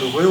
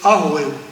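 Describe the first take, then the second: First: The name begins directly with the r sound. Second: The name begins with an a vowel before r. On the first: This is the name as written. "quand on prononce Rueho" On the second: This is how the name is actually said. "on dit c'est Arueho"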